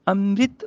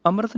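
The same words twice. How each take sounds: First: ਅੰਮ੍ਰਿਤ as "amrit"; i after r. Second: ਅੰਮ੍ਰਿਤ as "amrat"; wrong missing i. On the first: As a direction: sound a short i after r in ਅੰਮ੍ਰਿਤ. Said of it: "ਸਿਹਾਰੀ ਨਾਲ ਬੋਲਣਾ". (ਅੰਮ੍ਰਿਤ ਵਿੱਚ ਰਾਰੇ ਨੂੰ ਸਿਹਾਰੀ) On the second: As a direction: end ਅੰਮ੍ਰਿਤ in "rat". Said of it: "ਅੰਮ੍ਰਿਤ ਨਹੀਂ ਬੋਲਣਾ". (ਅੰਮ੍ਰਿਤ ਨੂੰ "ਅੰਮਰਤ" ਬੋਲੋ) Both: Shown as a demonstration.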